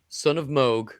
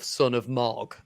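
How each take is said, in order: First: The name's vowel is a long oo sound. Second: The name's vowel is a short o sound. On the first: This is the character's intended name. The speaker calls it right. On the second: This is not the character's name. The speaker calls it wrong.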